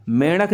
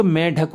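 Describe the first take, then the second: First: मेंढक with a nasal flap for dh; मेंढक without the hard ढ; wrong flapped middle. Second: मेंढक with a stopped, aspirated retroflex dh; मेंढक with undotted ढ sound; correct hard dh. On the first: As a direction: say मेंढक as men-rak, tongue flicked. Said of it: "नहीं होता बच्चों". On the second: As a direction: say मेंढक as men-dhak. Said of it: "होता है". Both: Shown as a demonstration.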